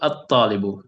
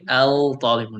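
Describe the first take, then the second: First: The article blends into the t, sounding 'at'. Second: The article keeps its l, sounding 'al'. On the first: The speaker calls it right. "pronouncing it like at at-talibu" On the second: The speaker calls it wrong. "we do not say al-talibu, no"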